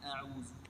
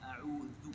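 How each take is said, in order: First: The middle consonant is a plain 'z' sound. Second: The middle consonant is a voiced 'th' sound. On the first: The speaker calls it wrong. "ini huruf zai murni tadi. Ini yang salah tadi" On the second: The speaker calls it right. "yang benar huruf dzal"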